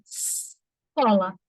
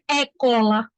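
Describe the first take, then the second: First: The S sound is clearly pronounced. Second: The S sound is left out. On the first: The speaker calls it right. "olha o S agora, o S tá, tá aí presente" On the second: The speaker calls it wrong. "O certo não é é cola"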